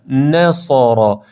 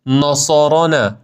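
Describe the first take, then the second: First: نصارا slow, light nun and heavy sad; نصارا with a thin n and a thick s; right. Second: نصارا with the nun and sad blended; نصارا with a heavy nun; wrong. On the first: Teacher modelling the thin nun and thick sad. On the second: Teacher showing the wrong heavy nun. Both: Shown as a demonstration. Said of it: "نون نازک، صاد درشته".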